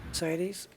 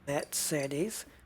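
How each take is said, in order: First: The name is said in an ordinary anglicized way. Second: The name is said in a German-style way. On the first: The speaker calls it wrong. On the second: The speaker calls it right.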